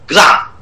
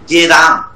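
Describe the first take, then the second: First: The opening consonant cluster is kept together. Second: A vowel is inserted inside the opening cluster. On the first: It is the original Sanskrit form of the word. "গড়ে ফেলাকার মতো" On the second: It is a semi-Sanskrit, altered form of the word. "গয়কার রয়কার যুক্ত ব্যঞ্জনটা ভেঙেছি"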